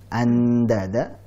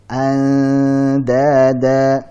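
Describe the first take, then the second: First: The tongue presses fully, giving a clear n. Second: The tongue stays just short, giving a hidden nasal. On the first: The speaker calls it wrong. "Jangan sampai uh, lidah kita nempel ke huruf dal. Ya, jangan andada" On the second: The speaker calls it right. "tapi hampir menempel. Dijauhkan lagi ya"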